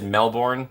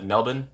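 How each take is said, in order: First: Said in the usual way. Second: Melbourne as MEL-bn, the r dropped and the end swallowed; Aussie Melbourne. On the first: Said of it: "but he said Melbourne". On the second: Shown as a demonstration. Imitating how Russell Crowe says it, Aussie style. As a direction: clip Melbourne short like an Aussie. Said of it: "I thought of my Aussies".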